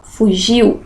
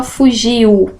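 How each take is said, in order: First: Fugiu said as two syllables, fu-giu; everyday pronunciation. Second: Fugiu said as three syllables, fu-gi-u; wrong syllable split. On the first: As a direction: glide i into u at the end of fugiu. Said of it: "a gente fala fugiu". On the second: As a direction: pull the final u of fugiu apart from the i. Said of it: "a gente não fala fugiu". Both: Shown as a demonstration.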